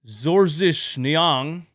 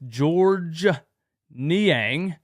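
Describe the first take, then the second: First: The first name is said with a non-English pronunciation. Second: The first name is said the usual English way.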